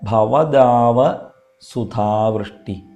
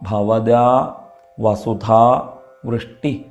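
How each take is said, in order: First: The phrase is broken after bhavadava. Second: The phrase is broken after bhavada. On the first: The speaker calls it right. "അതങ്ങനെയല്ല" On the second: The speaker calls it wrong. "ചിലരെങ്കിലും ഭവദാ വസുധാ വൃഷ്ടി എന്ന് ചൊല്ലാറുണ്ട്. അതങ്ങനെയല്ല"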